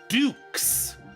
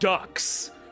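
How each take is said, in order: First: The vowel is long, as in 'duke'. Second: The vowel is short, as in 'duck'. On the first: The speaker calls it right. "It's Dukes. It's an actual name. It's French" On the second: The speaker calls it wrong. "everyone pronounce it Ducks because he's a duck"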